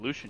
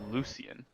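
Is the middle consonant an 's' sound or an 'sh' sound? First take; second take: sh; s. First: The middle consonant is an sh sound. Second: The middle consonant is an s sound. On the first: The speaker calls it right. "a full-on S H sound" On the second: The speaker calls it wrong. "It was Lucian"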